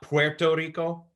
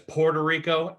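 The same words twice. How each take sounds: First: It is said with a Spanish pronunciation. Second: It is said with an English pronunciation. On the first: "and not Puerto Rico" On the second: "someone like me says Puerto Rico"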